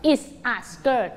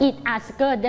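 First: "it's a skirt" with the S sounded; correct form. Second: "it a skirt" with the S dropped after "it"; faulty example, bare "it" before "a skirt"; wrong form. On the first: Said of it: "ต้อง". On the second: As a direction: leave the s off "it's" in "it a skirt". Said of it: "ไม่ได้". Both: Shown as a demonstration.

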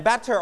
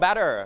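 First: "batter" with a British clear T; British pronunciation. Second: "batter" with an American tapped T; American pronunciation. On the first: Teacher offering both versions before the example, British "batter" with crisp T. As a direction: sound the T fully in "batter", British-style. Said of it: "ถ้าเป็นอังกฤษจะ". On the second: Teacher offering the second version to class, American "batter" with tapped T. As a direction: soften the T in "batter" to D, American-style. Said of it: "ถ้าอเมริกันก็". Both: Shown as a demonstration.

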